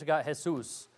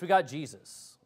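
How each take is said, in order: First: The name is pronounced the Spanish way. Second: The name is pronounced the English way. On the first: "In Spanish" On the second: "In English"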